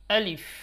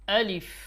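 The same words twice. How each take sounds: No difference in how they are said.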